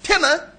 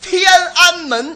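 First: The middle syllable is swallowed, Beijing style. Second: All three syllables are clearly pronounced.

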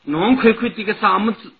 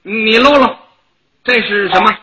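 First: It is said in a Shanghai accent. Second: It is said in a Beijing accent.

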